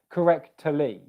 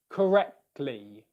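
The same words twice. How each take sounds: First: An extra schwa vowel separates the middle consonants. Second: The middle consonants join with no vowel between. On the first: The speaker calls it wrong. "it would then sound like you were putting a schwa in there" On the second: The speaker calls it right. "I'm going to pause airflow in the K position"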